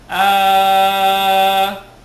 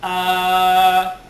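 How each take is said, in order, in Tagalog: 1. Ang patinig ay binibigkas nang anim na bilang. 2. Ang patinig ay binibigkas nang apat na bilang. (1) "kung anim" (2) "kung apat"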